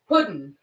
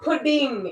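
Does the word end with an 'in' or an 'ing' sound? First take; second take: in; ing. First: The word ends with a clipped 'in' sound. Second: The word ends with a full 'ing' sound. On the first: The speaker calls it right. "It's puddin" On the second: The speaker calls it wrong. "It's not pudding"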